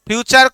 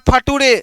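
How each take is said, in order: First: The middle consonant is a 'ch' sound. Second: The middle consonant is a 't' sound. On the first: The speaker calls it right. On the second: The speaker calls it wrong. "फ्यूचर को पढ़ रहा है फटूरे"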